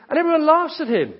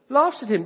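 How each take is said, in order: First: Laughs punched higher and louder; stress on laughs. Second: Said in the usual way. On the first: Shown as a demonstration. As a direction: lean hard on "laughs", then drop.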